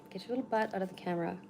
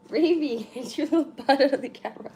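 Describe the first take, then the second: First: Said in the usual way. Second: High, loud call to the pet; calling the cat. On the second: Real, not acted. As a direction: call the cat off, half laughing.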